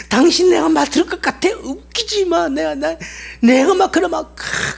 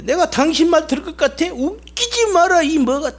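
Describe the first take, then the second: First: High, yelling defiance with the stress on 당신; loud scornful rant. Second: High, mocking defiance with the stress on 말; scornful angry rant. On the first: Acted. Slave yelling at the master on the way home, scornful rant. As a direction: bellow your scorn at the master. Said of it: "막 욕을 퍼부어대도 막 고래고래". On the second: Slave scorning the master who bought him, angry refusal. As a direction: spit the refusal at your new master, slowing on 웃기지 마라. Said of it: "막 욕을 퍼부어대는 거야".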